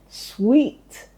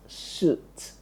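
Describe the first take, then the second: First: The word is said with a w, like sweet. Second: The word is said without w, like suit. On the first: The speaker calls it right. "that word should be pronounced as sweet" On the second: The speaker calls it wrong. "and not suit"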